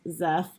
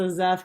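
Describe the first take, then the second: First: The name begins with one single consonant sound. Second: The name begins with an s then z sound. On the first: This is the official pronunciation. The speaker calls it right. "apparently the official pronunciation is Zeth" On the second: This is the reader's own private pronunciation. The speaker calls it wrong. "my brain has always pronounced it so Zeth because it's an S and then a Z"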